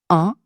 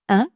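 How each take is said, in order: First: The nasal vowel is said with rounded lips. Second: The nasal vowel is said with spread lips. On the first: "Je vous fais les deux" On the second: "la forme de mes lèvres change"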